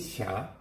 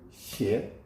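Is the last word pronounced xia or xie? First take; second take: xia; xie. First: The word is pronounced with the vowel 'ia'. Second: The word is pronounced with the vowel 'ie'. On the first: "원래 그 샤가 더 좋아요" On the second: "두 가지로 다 있거든요"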